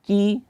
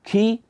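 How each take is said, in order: First: The k is released with a light breath. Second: The k is released with a heavy burst of breath. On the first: The speaker calls it right. "dia standar saja, jangan terlalu berlebihan" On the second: The speaker calls it wrong. "nafasnya dikeluarkan secara berlebihan"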